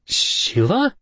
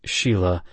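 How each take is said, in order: First: "Sheila?" squeaked very high with a rising tune. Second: Said in the usual way. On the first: A narrator's reading. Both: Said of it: "I squeaked".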